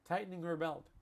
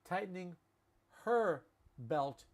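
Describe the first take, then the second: First: The word her is said without an h. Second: The word her starts with an h sound.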